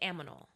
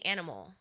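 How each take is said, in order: First: The m sound comes before the n sound. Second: The n sound comes before the m sound. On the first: The speaker calls it wrong. "I would say aminal for the longest time" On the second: The speaker calls it right. "I wouldn't say animal"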